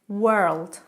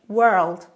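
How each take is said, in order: Both takes have the same delivery.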